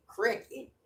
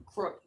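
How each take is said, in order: First: "cricket", crick-it, lifted at the end; crooked as "cricket". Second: Said in the usual way. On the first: Shown as a demonstration. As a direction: say "cricket" with a short i in the first syllable. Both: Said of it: "not even crooked, cricket".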